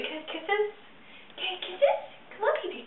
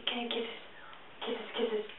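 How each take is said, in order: First: High cooing question to the cat. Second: Whispered coaxing question. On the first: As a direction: coax the kitty in a high sweet voice. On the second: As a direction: hush it to a breathy whisper for the cat. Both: Real, not acted. Asks cat for kisses.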